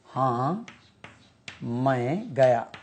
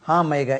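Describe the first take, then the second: First: हाँ, pause, then मैं गया said slowly; slow teacher's model of हाँ मैं गया; slow, split demo. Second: Said in the usual way. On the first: Shown as a demonstration. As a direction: break the answer apart for students. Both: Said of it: "Yes, I went".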